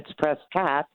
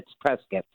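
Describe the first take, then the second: First: It is said the California way, ending like 'cot'. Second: It is said the Arizona way, rhyming with 'biscuit'.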